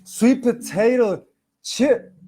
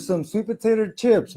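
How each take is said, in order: First: Slow, slipped-in Boston accent on "sweet potato". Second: Said in the usual way. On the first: Real, not acted. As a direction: say "sweet potato chip" slowly, Boston-style. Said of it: "like, a Boston accent". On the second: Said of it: "Never mind. Anyways".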